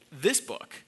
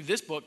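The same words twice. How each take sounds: First: Weighty contrastive stress on THIS. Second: Said in the usual way. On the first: Real, not acted. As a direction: set off "this book", leaning hard on THIS. Contrasts one book with whole Bible.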